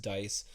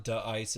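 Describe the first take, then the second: First: "Dice" said as one syllable, like dice; right pronunciation. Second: "[name]" said as two words, Da then Ice; wrong pronunciation. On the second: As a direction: split it into "[name]". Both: Shown as a demonstration. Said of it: "I finally learned how to pronounce their name".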